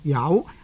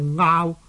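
First: The word begins with a y sound. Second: The word begins with a vowel sound. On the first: "這個字是讀有" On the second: "有些人呢是讀做拗"

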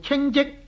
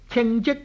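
First: 称 is said in the level tone. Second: 称 is said in the departing tone. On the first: The speaker calls it wrong. "读做平声呢就好难解噶啦" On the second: The speaker calls it right. "读做去声呢系可以解"

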